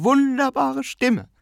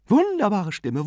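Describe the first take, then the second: First: Much higher, slow, stretched-out gushing; drawn-out rapturous repetition; emphatic repeat. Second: Higher, admiring exclamation; enthusiastic praise. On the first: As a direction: lean into it even more. Aunt repeats her praise. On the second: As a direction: gush about the singer. Aunt praises the tenor. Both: A narrator's reading.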